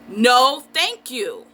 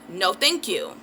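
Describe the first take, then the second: First: It is said loudly and forcefully. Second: It is said at a normal, quiet volume.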